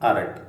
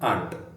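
First: The word is said as two syllables, ar-ant. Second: The word is said as one syllable, aant. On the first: "so ನೀವು ಮೊದಲಿಗೆ ಆರಂಟ್ ಅಂತ ಉಚ್ಚಾರ ಮಾಡ್ಬೋದು" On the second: "ಹೋಗ್ತಾ ಹೋಗ್ತಾ ಸರಿ ಆಗ್ತದೆ"

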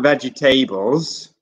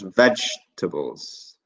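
First: The ending sounds like the word 'tables', four syllables. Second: The middle is reduced, giving three quick syllables. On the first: The speaker calls it wrong. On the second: The speaker calls it right.

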